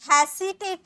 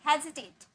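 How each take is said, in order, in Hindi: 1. बीच का व्यंजन फुफकारने वाली s ध्वनि है। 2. बीच का व्यंजन गूँजने वाली z ध्वनि है। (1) "हेसिटेट नहीं, इसमें सी नहीं" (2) "जी पढ़ेंगे"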